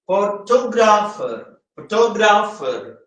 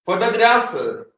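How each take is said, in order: First: photographer with the second syllable, TO, stressed. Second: Said in the usual way. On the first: Shown as a demonstration. Teacher showing where photographer takes stress, on TO. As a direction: lean on the TO in photographer. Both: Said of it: "ടി ആണ് stress ചെയ്യുന്നത്".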